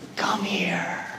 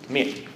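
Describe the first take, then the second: First: It is said in a soft, comforting tone. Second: It is said in a cold, threatening tone. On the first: A hurt child is being called for comfort. "a parent to a child who has just fallen or is hurt" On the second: An enemy is calling someone to harm them. "an enemy saying"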